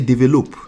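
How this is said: It is said with a Nigerian pronunciation. The speaker calls it wrong. "we don't say develop here"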